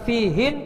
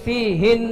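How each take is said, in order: First: The final n is cut short. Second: The final n is held longer. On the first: The speaker calls it wrong. "Bukan fihin" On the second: The speaker calls it right. "Agak ditahan. tapi fihin"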